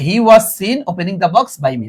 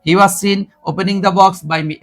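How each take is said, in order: First: Very slow, each word stressed; teacher reading the answer slowly; slow model read. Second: Very slow, word by word; teacher repeating the answer slowly; slow model read. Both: Shown as a demonstration. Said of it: "দেখো কোথায় আসছে".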